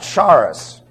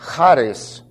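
First: The word begins with a hard sound. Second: The word begins with a light breathy sound. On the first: The speaker calls it wrong. "not charis" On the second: The speaker calls it right. "It's a light guttural"

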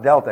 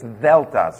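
First: The word begins with a hard D sound. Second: The word begins with a voiced TH sound. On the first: The speaker calls it wrong. "No, it's not delta" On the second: The speaker calls it right. "so it's a TH sound"

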